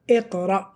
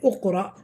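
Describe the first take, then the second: First: The word begins with an i vowel. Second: The word begins with a u vowel. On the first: The speaker calls it right. "So we said Iqra" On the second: The speaker calls it wrong. "We didn't say Uqra"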